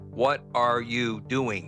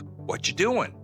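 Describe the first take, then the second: First: Every word is said in full. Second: The words are shortened and run together.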